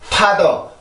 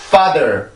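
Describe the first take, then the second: First: The first sound is a breathy, aspirated p. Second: The first sound is tense and unaspirated. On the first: The speaker calls it wrong. "이렇게 하는 분들이 있는데" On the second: The speaker calls it right. "이렇게 발음을 하라고 가르쳐주면"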